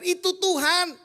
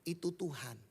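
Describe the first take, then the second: First: Higher and louder, a sudden realisation; the disciple cries out that it is the Lord; excited exclaim. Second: The disciples quietly realise it is the Lord; hushed knowing. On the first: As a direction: blurt it out as you recognise him. Disciple recognizes Jesus, exclaims. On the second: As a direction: lower and softer, an awed inner certainty. Disciples silently know it is him. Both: Acted.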